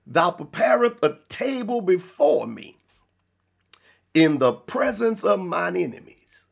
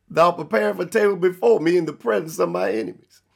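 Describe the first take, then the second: First: Deliberate, spaced-out verse reading; measured scripture reading. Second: Fast, run-together verse reading; quick verse recap. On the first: Preacher reading verse five of Psalms twenty-three to the congregation, measured reading. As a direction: read it out in weighty phrases with a long pause midway. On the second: Preacher repeating the Psalms verse to drive it home, quick recap. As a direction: rattle the verse off in one unbroken run. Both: Real, not acted.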